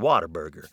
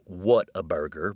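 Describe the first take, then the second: First: It is said with a relaxed Texan pronunciation. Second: It is said with careful standard pronunciation. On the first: "many of us prefer" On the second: "It is, of course, pronounced"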